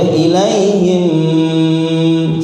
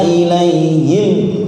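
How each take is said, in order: First: The final sound is held long. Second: The final sound is released short. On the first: The speaker calls it wrong. "nggak boleh ilaihim, salah" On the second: The speaker calls it right. "lepas, nggak boleh ditahan juga"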